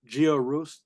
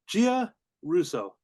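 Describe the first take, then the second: First: The name is said smoothly as one word. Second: The name is split into two separate parts. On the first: The speaker calls it wrong. "I say that wrong every time" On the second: The speaker calls it right. "I just have to split it up like that"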